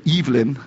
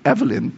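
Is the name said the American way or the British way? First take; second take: British; American. First: The name is said the British way. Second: The name is said the American way. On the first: "there, they call it Evelyn" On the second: "in America we pronounce it Evelyn"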